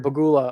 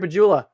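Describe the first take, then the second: First: The middle consonant is a hard G sound. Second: The middle consonant is a soft J sound. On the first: The speaker calls it right. "but it's really a G" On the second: The speaker calls it wrong. "I keep saying it with a J"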